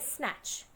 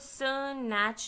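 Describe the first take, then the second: First: The s and n sounds are blended together. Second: The s and n sounds are said separately. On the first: The speaker calls it right. "ये एक दूसरे में blend हो जाते हैं" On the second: The speaker calls it wrong. "स्नैच नहीं बोलते"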